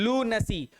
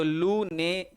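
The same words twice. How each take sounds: First: लू नसी with a short "na", not ne; लू नसी, short unstressed middle syllable; right pronunciation. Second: लूने said with a full "ne" sound; the mistaken लूने, long ne in the middle; wrong pronunciation. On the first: Teacher correcting the word: लू नसी with short na. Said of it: "नसी लिखा हुआ है". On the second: Teacher demonstrating the wrong way: लूने with ne. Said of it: "इसको ने करेंगे बेटा". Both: Shown as a demonstration.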